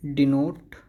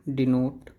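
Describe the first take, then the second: No difference in how they are said.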